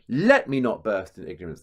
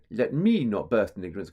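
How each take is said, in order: First: "Let" punched hard and loud, "me" light; stress on LET. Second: "me" wrongly leaned on, "Let" left light; stress on ME. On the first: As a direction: hit "Let" hard as a trochee. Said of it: "So there's another trochee there". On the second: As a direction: put the weight on "me", not on "Let". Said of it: "And you wouldn't go". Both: Shown as a demonstration.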